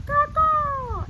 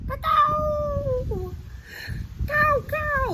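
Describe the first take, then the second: First: High, loud crow cawing with a changed voice. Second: High, loud crow cawing. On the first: Reading the crow's line to children, high loud caw. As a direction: squawk it like a crow. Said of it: "It says". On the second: Teacher showing kids how crows sound, high loud caw. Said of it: "it sounds like this". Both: Shown as a demonstration.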